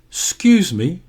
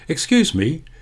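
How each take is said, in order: First: The first syllable of excuse is squeezed short. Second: Both syllables of excuse are said fully.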